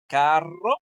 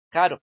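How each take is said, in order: First: "carro" with a strong rolled double r; "carro" with the rr trilled hard. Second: "caro" with a soft single tapped r; "caro" with a light r tap. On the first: Teacher showing the strong R in carro. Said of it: "En uno suena fuerte la R". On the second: Teacher showing the soft R in caro. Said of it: "en el otro suena suave". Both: Shown as a demonstration.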